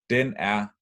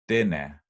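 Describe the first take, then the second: First: The two words are said separately, without linking. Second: The final consonant moves onto the next word.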